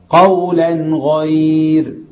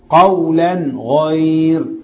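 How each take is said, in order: The two takes are said the same way.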